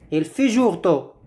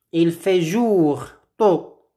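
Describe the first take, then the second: First: Said in the usual way. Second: Slow model phrase. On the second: Shown as a demonstration. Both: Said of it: "Répétez après moi".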